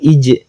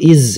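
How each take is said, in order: First: The syllable ends with a j sound. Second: The syllable ends with a z sound. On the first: "bukan ij" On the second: "atau iz, bukan"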